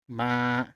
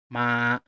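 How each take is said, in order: First: The pitch stays level and steady. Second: The same.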